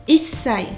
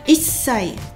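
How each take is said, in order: Both takes have the same delivery.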